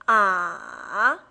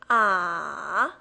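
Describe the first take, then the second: Both takes have the same delivery.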